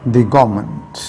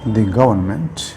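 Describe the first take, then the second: No difference in how they are said.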